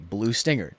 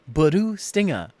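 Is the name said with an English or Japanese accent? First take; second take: English; Japanese. First: The name is said with plain English sounds. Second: The name is said with Japanese-style syllables. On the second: "Japanese director was like, "No, no, no"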